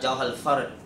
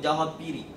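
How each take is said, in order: First: The second word is said as fard. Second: The second word is said as firik. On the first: "yang betul" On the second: "guru saya sebut jauhal pirik"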